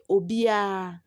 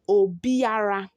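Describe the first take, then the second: First: The R sound is dropped entirely. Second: The R sound is clearly pronounced. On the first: "when you are pronouncing it in the typical tree, we say" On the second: "we write it Obiara"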